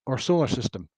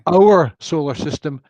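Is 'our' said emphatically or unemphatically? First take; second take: unemphatic; emphatic. First: 'Our' is said weakly, as unemphatic 'wur'. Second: 'Our' is said strongly, as emphatic 'ur'. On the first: It simply refers to the solar system. "as opposed to" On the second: It means our own solar system, not another. "Ur is emphatic"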